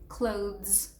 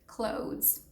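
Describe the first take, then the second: No difference in how they are said.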